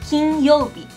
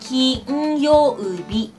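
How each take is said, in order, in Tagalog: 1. Sinasabi ang salita sa normal na bilis. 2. Sinasabi ang salita nang mabagal.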